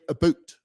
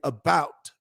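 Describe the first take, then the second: First: It is said in a Canadian accent. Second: It is said in an American accent. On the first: "the Canadians say about" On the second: "You and I say about"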